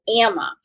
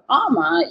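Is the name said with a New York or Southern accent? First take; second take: New York; Southern. First: The name is said with a New York pronunciation. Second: The name is said with a Southern pronunciation. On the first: "which is my New York" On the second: "the southern pronunciation of Amma"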